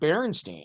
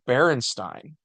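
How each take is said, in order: First: The last syllable rhymes with 'seen'. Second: The last syllable rhymes with 'fine'. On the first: It follows the pattern of surnames like Goldstein. "Because it's like Goldstein" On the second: It follows the pattern of Frankenstein. "Because it's spelled like Frankenstein"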